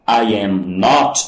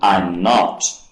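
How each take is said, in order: First: I am is said as two full words. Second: I am is contracted into one syllable.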